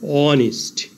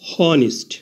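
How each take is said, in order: First: The word begins directly with a vowel. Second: The word begins with an h sound. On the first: The speaker calls it right. "h এর উচ্চারণ না হয়ে vowel ও থেকে উচ্চারণ শুরু হয়েছে" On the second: The speaker calls it wrong. "প্রথমে h ধরে উচ্চারণ করলে হয়"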